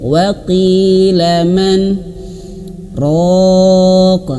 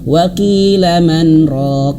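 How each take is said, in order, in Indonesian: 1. Berhenti setelah man dan mengambil napas. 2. Langsung terus tanpa berhenti sama sekali. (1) "Nggak boleh menarik nafas" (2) "diterabas ... dilangsungkan"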